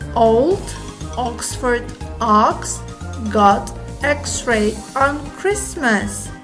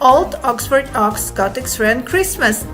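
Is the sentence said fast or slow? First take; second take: slow; fast. First: The sentence is said at a slow pace. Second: The sentence is said at a fast pace. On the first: "Let's read it slowly" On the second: "Let's try it quickly"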